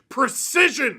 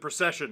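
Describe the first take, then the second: First: The name sounds like the word precision. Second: The name sounds like the word procession. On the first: This is how the name looks written. "the man's name is literally Precision" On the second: This is how the name's owner says it. "apparently he pronounces it Procession"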